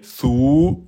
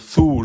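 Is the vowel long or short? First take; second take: long; short. First: The vowel is long, held two beats. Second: The vowel is short, held one beat. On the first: "je dirais sou en deux temps" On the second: "au lieu de dire sou"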